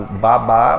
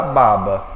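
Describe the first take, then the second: First: Babá stressed at the end, as ba-BÁ; "Babá" with the beat on BÁ; stress on last syllable. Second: Baba stressed at the start, as BA-ba; "baba" with the beat on the first BA; stress on first syllable. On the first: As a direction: hit the final syllable of "Babá". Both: Shown as a demonstration. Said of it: "A mesma coisa que".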